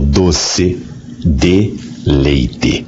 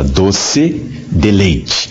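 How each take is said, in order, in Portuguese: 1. 'De' e 'leite' são pronunciados como palavras separadas. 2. 'Deleite' é pronunciado como uma palavra junta. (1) "com três palavras" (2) "ou seja, um deleite, um prazer doce"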